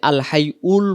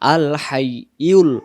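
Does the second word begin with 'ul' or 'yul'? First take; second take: ul; yul. First: The second word starts with a plain vowel. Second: The second word starts with a y sound. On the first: The speaker calls it wrong. "যদি আল হাই উল বলি তাহলে ইয়া অক্ষরটা হবে না" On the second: The speaker calls it right. "এখানে আছে ইয়া লাম পেশ ইউল"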